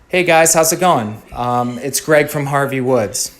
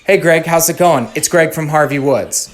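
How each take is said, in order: First: It is said with pauses and an um. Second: It is said without any gaps or ums.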